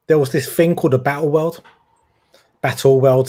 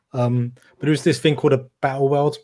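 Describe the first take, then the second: First: East End Cockney lilt; Cockney accent. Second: Said in the usual way. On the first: Real, not acted. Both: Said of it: "gone into my Cockney voice now".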